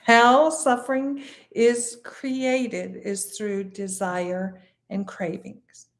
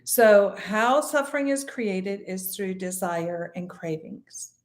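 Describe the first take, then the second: First: Slow, measured repeat, spacing out "How suffering is created"; emphatic repeat. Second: Said in the usual way. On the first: Shown as a demonstration. Teacher repeating a key point for listeners, slow and emphatic. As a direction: stretch and separate "How suffering is created", then ease down on "desire and cravings". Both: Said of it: "I'll repeat that".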